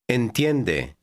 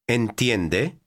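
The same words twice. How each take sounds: First: The voice falls at the end, as a statement. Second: The voice rises at the end, as a question.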